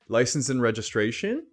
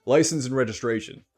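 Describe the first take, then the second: First: "License and registration?" rising at the end like a question; hesitant cop, voice curving upward; unsure upward tone. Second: "License and registration," with the pitch falling at the end; firm cop delivery, voice dropping at the close; authoritative downward tone. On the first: Cop at a traffic stop sounding unsure, rising tune. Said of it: "instead of". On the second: Cop at a traffic stop, firm with falling tune. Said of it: "You can imagine a police officer pulls you over". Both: Shown as a demonstration.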